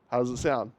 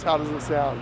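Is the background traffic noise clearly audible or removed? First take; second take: removed; clearly audible. First: Background noise is filtered out, leaving a clean voice. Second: Loud traffic noise is heard behind the voice. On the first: "with some post-processing with the same A I voice isolation" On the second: "no post-processing out here in this super loud environment"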